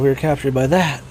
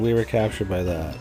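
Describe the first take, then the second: First: It is said in an excited, urgent way. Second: It is said in a flat, sleepy way.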